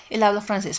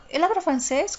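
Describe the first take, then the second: First: Said in the usual way. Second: "Él habla francés" asked as a question, pitched up and rising at the end; higher-pitched yes-no question on "Él habla francés", ending on a rise; question intonation. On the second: Shown as a demonstration. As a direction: lift "francés" at the end to ask it.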